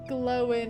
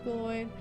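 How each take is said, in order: First: The name is said as Glowin. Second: The name is said as Gloin. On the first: The speaker calls it wrong. "he called the dwarf Glowin instead of Gloin" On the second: The speaker calls it right. "instead of Gloin"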